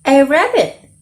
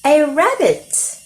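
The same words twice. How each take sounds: First: Louder take. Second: Higher take. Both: Shown as a demonstration.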